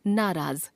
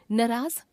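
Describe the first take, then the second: First: Said in the usual way. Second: नाराज with a short first a, "nuraaz"; wrong pronunciation. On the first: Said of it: "शुद्ध". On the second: Shown as a demonstration. Teacher showing a common error, नाराज said as "nuraaz". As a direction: clip the first vowel of नाराज short, rising at the end. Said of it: "अशुद्ध".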